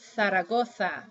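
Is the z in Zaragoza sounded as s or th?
th. The z letters are sounded as th. "they'll say Zaragoza"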